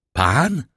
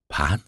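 First: Higher-pitched, drawn-out disbelieving question; shocked cry. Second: Said in the usual way. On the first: A narrator's reading. (wstrząśnięty okrzyk) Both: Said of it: "krzyknął Franz".

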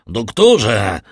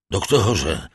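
First: Doktorze called out much louder, urgent. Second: Calling out. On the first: Villefort shouts louder for the doctor from the doorway. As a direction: raise the second doktorze into a shout. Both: A narrator's reading. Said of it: "zawołał".

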